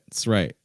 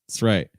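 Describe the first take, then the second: First: The first word is reduced to a short sound. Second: The same.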